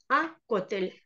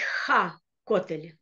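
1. Слово начинается с обычного гласного звука. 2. В начале слышен звук h. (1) "то просто говорим а" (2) "Здесь мы не будем говорить ха котель"

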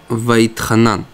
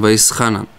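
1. Средняя согласная произносится как t. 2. Средняя согласная произносится как s.

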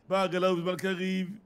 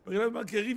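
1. כל הברה מבוטאת במלואה ובבירור. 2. הצלילים נבלעים והמילים מתחברות זו לזו.

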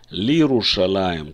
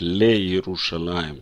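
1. Первые слоги слиты в один короткий слог. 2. Первые слоги произносятся каждый по отдельности. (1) "так большинство прочитают" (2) "в Иерусалиме многие читают как"

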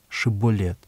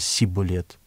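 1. Слово начинается со звука sh. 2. Слово начинается со звука s. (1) "скажи «река»" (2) "Они говорили что-то похожее на"

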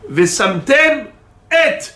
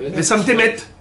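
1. Une nette coupure sépare vesamtem de et. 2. Vesamtem et et s'enchaînent sans coupure.

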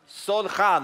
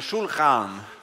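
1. Ordet börjar med ett vanligt s-ljud. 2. Ordet börjar med ett sh-ljud. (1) "inte Sol, nej" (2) "Shulchan, inte Sol"

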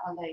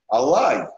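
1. Слово заканчивается на звук 'ey'. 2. Слово заканчивается на звук 'ai'. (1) "Нет" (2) "Нет, Алай"

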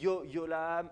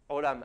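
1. Le mot commence par un son y. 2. Le mot commence par une gorge serrée. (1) "j'entends beaucoup de gens qui font des yod" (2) "on contracte la gorge"

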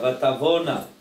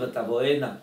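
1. המילה מסתיימת ב-'vona' ללא צליל 'ee'. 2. המילה מסתיימת ב-'vo-eena' עם צליל 'ee'. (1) "זה לא משנה את הצורה שבה אתה אומר את המילה" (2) "אם היינו מבטאים עם היוד"

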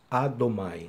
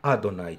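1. La consonante del medio suena como m. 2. La consonante del medio suena como n.

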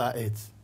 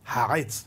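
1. המילה מתחילה בתנועה פשוטה. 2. המילה מתחילה בהגה גרונית. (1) "לא העץ, עץ, לא יודע מה זה עץ, עם א'" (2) "עין, כן"

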